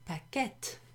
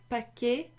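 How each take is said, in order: First: The word ends with a clear T sound. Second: The word ends without a T sound. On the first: "if there was a double T E at the end, then it would be paquette" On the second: "you don't pronounce the T at the end"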